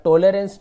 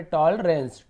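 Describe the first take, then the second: First: टॉलरेंस mispronounced as "to-le-rens", three syllables; wrong pronunciation. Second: टॉलरेंस as "tawl-rens", two parts, louder; taught pronunciation. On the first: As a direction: add an "e" after the l in टॉलरेंस, with a long "o". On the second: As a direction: open "aw" in टॉलरेंस and no vowel after l. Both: Shown as a demonstration. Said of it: "आप टॉलरेंस नहीं पढ़ेंगे".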